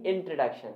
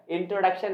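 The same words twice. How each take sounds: First: इंट्रोडक्शन as in-truh-DUK-shun; weak middle vowel, no o, in इंट्रोडक्शन; correct pronunciation. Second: इंट्रोडक्शन with a full o in "tro"; wrong pronunciation. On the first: Teacher correcting students, correct pronunciation. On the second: Teacher rejecting the habit, wrong pronunciation. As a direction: sound the o in इंट्रोडक्शन clearly. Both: Shown as a demonstration. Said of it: "इंट्रोडक्शन नहीं इंट्रोडक्शन".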